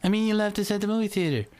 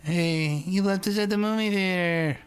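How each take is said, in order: First: Put-on high, fast squeaky-kid correction. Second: Put-on high-pitched nine-year-old complaining; high kid voice. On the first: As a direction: redo it quickly as a whiny little kid. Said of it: "I'd be like". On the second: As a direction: squeak it out like a little kid. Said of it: "'Cause I talked like that when I was nine".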